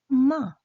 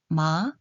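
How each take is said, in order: First: It is said with the fourth tone. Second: It is said with the second tone. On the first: "사" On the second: "이"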